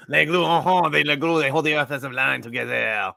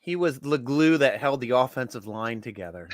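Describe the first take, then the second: First: Put-on hammy French Canadian accent; playful Québécois lilt. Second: Said in the usual way. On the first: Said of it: "my France Canadian accent".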